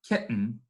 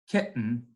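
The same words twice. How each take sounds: The two takes are said the same way.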